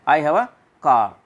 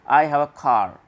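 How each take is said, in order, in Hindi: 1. British लहजा, अंतिम 'r' छोड़ दिया जाता है। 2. अमेरिकन लहजा, अंतिम 'r' बोला जाता है। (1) "लेकिन ब्रिटिश कैसे बोलेंगे?" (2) "अमेरिकन कैसे बोलेंगे?"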